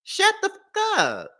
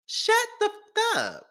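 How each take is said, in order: First: High, slow, drawn-out shut the fuck up; mock hush. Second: High, slow, drawn-out shut the fuck up; mock hush again. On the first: Vlogger mocking the husband, high and drawn-out scolding. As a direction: scold him like a nagging aunt. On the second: Vlogger repeating the mocking hush, higher and slower. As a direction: stretch every word out in a high voice.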